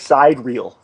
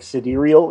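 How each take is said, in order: First: It is said as two words, side and reel. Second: It is said as one word, sigh-DEER-ee-ul. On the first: The speaker calls it wrong. "but it looks like side reel" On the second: The speaker calls it right. "like sidereal is how you pronounce it"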